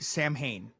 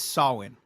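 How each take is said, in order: First: It is said as spelled, Sam Hain. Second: It is not said as spelled. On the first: This is how most people say it. The speaker calls it wrong. "but everybody Sam Hain" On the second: This is the traditional pronunciation. The speaker calls it right. "the correct way to say it is Samhain"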